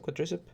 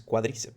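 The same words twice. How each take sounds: First: The word is pronounced the English way. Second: The word is pronounced the Spanish way.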